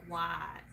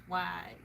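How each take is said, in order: First: Southern drawl on white. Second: Said in the usual way. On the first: Shown as a demonstration. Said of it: "I pronounce white, like, white". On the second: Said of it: "I pronounce white".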